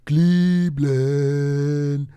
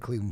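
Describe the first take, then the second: First: The word is said in a mocking, ridiculing way. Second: The word is said in a plain, neutral way. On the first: "He'd go, Cleveland, like Cleveland. And just to make fun of me, just to ridicule me" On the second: "he wouldn't say Cleveland"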